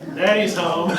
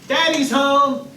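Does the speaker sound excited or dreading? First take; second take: dreading; excited. First: It is said in a worried, dreading tone. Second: It is said in an excited, happy tone.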